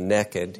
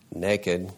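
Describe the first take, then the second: First: It is said in an Alabama accent. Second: It is said in a standard accent.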